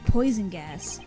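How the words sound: The stress falls on the word poison.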